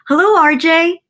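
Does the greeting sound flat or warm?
warm. It is said warmly, with a smile.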